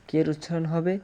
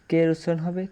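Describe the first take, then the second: The two takes are said the same way.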